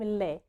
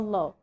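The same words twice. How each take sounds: First: The L is light and thin. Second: The L is heavy and emphatic. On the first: "نطقناها خفيفة كده لايت" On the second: "اللام كانت مفخمة"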